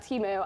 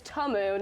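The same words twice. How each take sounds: First: Temu as TEE-moo, long ee; mistaken pronunciation of Temu. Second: Temu with a short first vowel, not TEE; corrected pronunciation of Temu. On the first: Host shows what they had been saying, Temu as TEE-moo. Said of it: "I've been saying Temu all the". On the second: Host shows the name they just learned, Temu as TUH-moo. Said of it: "I learned this weekend". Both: Shown as a demonstration.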